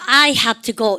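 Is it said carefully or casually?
carefully. Each word is said carefully and clearly.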